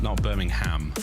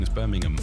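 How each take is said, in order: First: The last syllable sounds like the word 'ham'. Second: The last syllable is a short, reduced 'um'. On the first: The speaker calls it wrong. "There's no, there's no bovine, no pork involved" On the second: The speaker calls it right. "you say it right"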